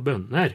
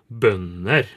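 First: A melody midway between the eastern and northern ones. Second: Spoken with the eastern and Trøndelag Norwegian melody. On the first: "Som en slags mellomting" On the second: "trøndersk og østnorsk så vil det jo bli bønder"

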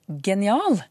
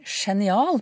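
First: The word begins with a hard g sound. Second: The word begins with a soft sh-like sound. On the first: The speaker calls it right. "men genial" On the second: The speaker calls it wrong. "vi sier jo ikke genial"

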